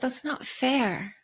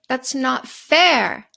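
First: It is said quietly, in a small voice. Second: It is said loudly, with rising force.

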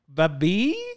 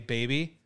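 First: The word is pronounced in an altered way. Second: The word is pronounced the standard way. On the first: The speaker calls it wrong. "I say babi" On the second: The speaker calls it right. "I have to pronounce baby correctly because I don't say baby"

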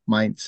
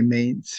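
First: The name is said with its official German pronunciation. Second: The name is said with a French-influenced pronunciation. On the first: This is the standard form of the name. "Mainz is the official pronunciation" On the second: This is a local usage shaped by French history. "the French influence is strong here ... So we also say Mainz here"

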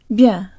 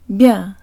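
First: The y sound is merged into the soft consonant. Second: The y sound is merged into the soft consonant.

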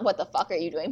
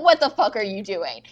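First: It is said in a calm, normal voice. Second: It is yelled loudly and angrily.

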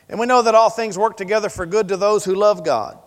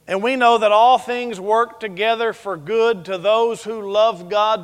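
First: The sentence is read at a fast pace. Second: The sentence is read at a slow pace. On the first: "I kind of read it fast" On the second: "You want me to read it slower?"

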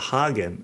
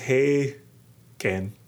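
First: The first syllable sounds like 'hah'. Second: The first syllable sounds like 'hay'. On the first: This is how the brand name is said. "like the Hagen in Haagen-Dazs" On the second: This is how the name's owner says it. "he says Hagen"

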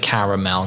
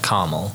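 First: The word is said with three syllables. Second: The word is said with two syllables. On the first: The speaker calls it right. "I have to say caramel" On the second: The speaker calls it wrong. "not caramel, because that's a pet peeve of mine"

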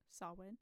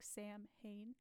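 First: It is said differently from how it looks. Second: It is sounded out letter by letter, Sam-hain. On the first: The speaker calls it right. "but it's pronounced Samhain" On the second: The speaker calls it wrong. "is how it's spelled"

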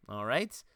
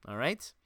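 The two takes are said the same way.

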